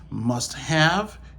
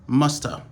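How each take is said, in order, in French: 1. Les deux mots sont dits en entier, non réduits. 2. Le have est réduit à presque rien. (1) "Au lieu natif, yo dit must have" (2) "une manière qui est plus rapide"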